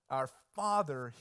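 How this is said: The stress falls on the word Father. He is the Father. "The emphasis doesn't just lie in the fact that He's the Father"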